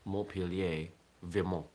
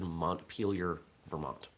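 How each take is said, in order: First: It is said with a French accent. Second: It is said with an American accent. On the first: "with a proper French accent" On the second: "it becomes Americanized"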